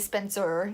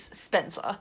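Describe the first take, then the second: First: The ending is said with an r sound. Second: The ending is said without an r sound. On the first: This is how Australians do not say the name. "We don't say Spencer because we're Australian" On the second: This is how Australians say the name. "is Spencer, because we're Australian"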